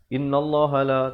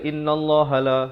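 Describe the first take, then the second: No difference in how they are said.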